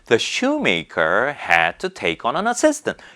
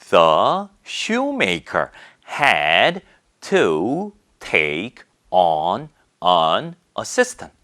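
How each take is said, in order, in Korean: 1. 단어들을 빠르게 이어서 말합니다. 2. 각 단어를 천천히 또렷하게 따로 말합니다. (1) "줄줄줄줄줄줄 막 연음도 있는 거고" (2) "이렇게 또박또박 읽어주지 않아요"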